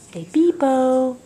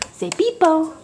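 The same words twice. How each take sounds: First: Put-on slow, drawn-out peepo for a toddler; slow, careful peepo; slow modelling for a toddler. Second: Said in the usual way. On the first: Shown as a demonstration. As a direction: stretch out peepo so the toddler can copy it.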